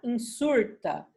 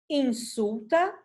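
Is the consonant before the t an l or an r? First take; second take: r; l. First: An r sound comes before the t. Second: An l sound comes before the t.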